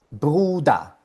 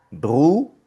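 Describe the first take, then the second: First: Said in the usual way. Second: "Bruder" split as "bru ... da"; syllable-by-syllable. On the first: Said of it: "Bruder tiene dos sílabas". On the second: Shown as a demonstration. Teacher counting the two syllables, Bruder broken into "bru, da". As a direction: pause between the syllables, rising on bru. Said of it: "tiene dos sílabas".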